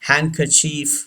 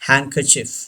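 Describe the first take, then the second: First: The final vowel is long and drawn out. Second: The final vowel is short and clipped. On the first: "वो long sound में पढ़ते हैं इसको" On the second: "और एक style pronunciation का Britishers का ये भी है"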